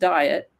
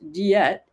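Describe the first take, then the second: First: It uses the ordinary English pronunciation. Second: It uses a Latin-style pronunciation. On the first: The speaker calls it wrong. "diet is not pronounced diet" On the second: The speaker calls it right. "it's pronounced diet in Latin"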